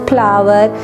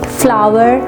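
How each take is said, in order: First: It begins with a puffed p sound instead. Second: It begins with an f sound, lip on teeth. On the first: The speaker calls it wrong. "वो उसको फा में convert कर देता है" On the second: The speaker calls it right. "ये proper pronunciation है first sound की"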